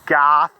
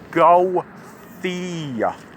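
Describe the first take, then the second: First: The name is said as one syllable. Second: The name is said as two syllables. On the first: "They call it Goth Loop... like a goth girl" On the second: "my dad says it's Gothy"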